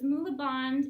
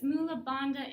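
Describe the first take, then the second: First: The last word ends without a final vowel. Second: The last word ends with a final vowel. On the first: This is the form used in Kundalini yoga. "So it's Mula Bandh in Kundalini" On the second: This is the form used in Hatha yoga. "it's Mula Bandha in Hatha. They say it differently"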